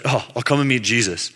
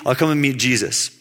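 First: Softer, unimpressed put-on voice; half-hearted, unenthused; grudging mock reluctance. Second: Said in the usual way. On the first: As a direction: drag it out like a reluctant friend. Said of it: "He's like". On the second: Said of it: "He says".

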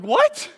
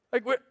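First: "What?" squeaked very high and loud, rising; incredulous what. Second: Said in the usual way. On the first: Retold or imitated. Pastor hearing the dead woman wrote them, very high incredulous "What?". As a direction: shoot up in total disbelief. Disbelief at letter.

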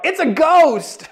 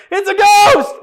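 First: High, drawn-out cry of fright; stretched, high-pitched frightened outburst; fearful cry. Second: Very high, loud comic shriek; hammed-up squealing yell of fright; Matthew's panicked shout. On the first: Acted. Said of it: "In their fear, they cried out". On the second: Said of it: "just Matthew going like".

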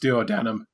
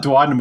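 First: Duodenum said as "duo-DAN-um"; mispronounced duodenum. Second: Said in the usual way. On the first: Shown as a demonstration. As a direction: say duodenum like "duo" plus "denum". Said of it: "was pronounced duodenum". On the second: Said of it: "I always thought duodenum was pronounced".

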